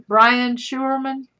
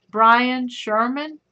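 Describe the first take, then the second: First: "Schuerman" said SHOO-er-man, with a German oo sound; corrected German pronunciation. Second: "Sherman" said as SHER-man, a plain English sh sound; first guess at the name. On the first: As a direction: say "Brian Schuerman" slowly and deliberately, stretching SHOO-er. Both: Shown as a demonstration. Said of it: "that's how I say it".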